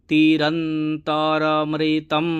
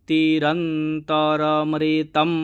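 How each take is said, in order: No difference in how they are said.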